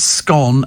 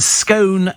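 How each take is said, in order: First: The vowel is short, like in 'Ron'. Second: The vowel is long, like in 'stone'. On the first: "scone as in Ron" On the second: "scone as in stone"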